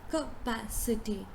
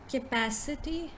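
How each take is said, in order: First: The first syllable has a clear 'ka' sound. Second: The first syllable lacks a clear 'ka' sound. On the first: The speaker calls it right. "but in fact it is capacity. ... you say ka, ka" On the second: The speaker calls it wrong. "So how do we pronounce this word?"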